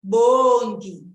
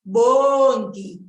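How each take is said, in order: No difference in how they are said.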